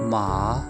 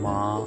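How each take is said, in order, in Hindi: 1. इस शब्दांश को तीसरे टोन में बोला गया है। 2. इस शब्दांश को दूसरे टोन में बोला गया है। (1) "थर्ड टोन है हमने बोली थी माँ" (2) "सेकंड टोन बोली है वो है माँ, यानी पतली आवाज़ से भारी आवाज़ में गए हैं"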